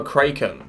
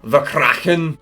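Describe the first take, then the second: First: "Kraken" said KRAY-ken, long a as in cake; "Kraken" rhymes with "taken". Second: "Kraken" said KRACK-en, short a as in back; "Kraken" rhymes with "blacken". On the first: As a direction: say "Kraken" with the a of day. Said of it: "'cause that just sounds stupid". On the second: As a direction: say "Kraken" with the a of cat. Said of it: "Not the Kraken". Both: Shown as a demonstration.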